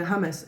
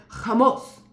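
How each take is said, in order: First: Said in the usual way. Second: Hummus with a throaty h and rounded vowels; the girl's native Arabic Hummus; Arabic pronunciation. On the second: Shown as a demonstration. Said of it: "like this".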